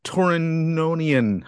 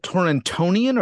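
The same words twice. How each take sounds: First: "Torononian" with N replacing the middle T; Torononian without T. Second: "Torontonian" with a sounded T in "tonian". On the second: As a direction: keep the middle T in "Torontonian". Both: Shown as a demonstration. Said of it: "is it Torontonian or Torononian".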